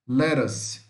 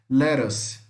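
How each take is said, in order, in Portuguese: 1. O T do meio é um toque rápido, parecido com R. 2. O T do meio é um toque rápido, parecido com R.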